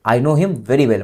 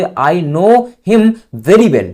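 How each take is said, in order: First: Said in the usual way. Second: Very slow, leaning on know and very; slow model sentence. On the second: Shown as a demonstration. Teacher showing students where very goes, slow and deliberate. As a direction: draw out "I know him very well" so very stands out. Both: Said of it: "very लगा देना है".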